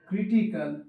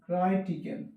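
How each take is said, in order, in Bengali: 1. প্রথম সিলেবলটি 'cree' এর মতো শোনাচ্ছে। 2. প্রথম সিলেবলটি 'cry' এর মতো শোনাচ্ছে। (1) "ক্রিয়ের মতো উচ্চারণ" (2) "তাহলে কিন্তু ওই আই উচ্চারণ হবে না"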